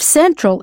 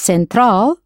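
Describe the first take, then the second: First: It is said with an English pronunciation. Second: It is said with a Spanish pronunciation.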